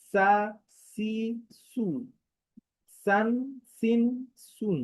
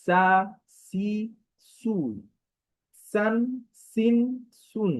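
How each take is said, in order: Both takes have the same delivery.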